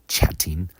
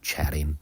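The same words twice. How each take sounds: First: The middle T is a clear T sound. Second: The middle T sounds like a soft D. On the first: "as opposed to" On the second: "American English speakers will pronounce the T like a D"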